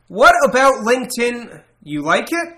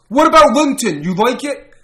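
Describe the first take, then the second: First: It is read in the reader's own normal voice. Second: It is read imitating another man's voice. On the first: The speaker calls it wrong. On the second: The speaker calls it right.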